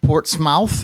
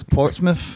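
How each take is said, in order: First: Said in the usual way. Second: "Portsmouth" with a reduced ending, like "Portsmiff"; local pronunciation. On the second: Shown as a demonstration. Host showing how locals say it, "Portsmouth" ending in "miff". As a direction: swallow the last syllable of "Portsmouth". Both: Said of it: "the proper pronunciation".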